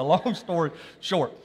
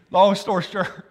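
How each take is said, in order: First: Said in the usual way. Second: SHORT slipped out sounding like shirt; slip of the tongue. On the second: Real, not acted. Preacher hurrying his story along, tongue slipping "short" into shirt. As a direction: stumble on "short" so it comes out as shirt. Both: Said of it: "I said shirt".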